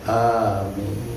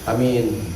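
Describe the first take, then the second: First: The first vowel is held long. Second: The first vowel is said short. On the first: "Hamzahna panjang oke" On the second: "Mun pendek beda hartosna"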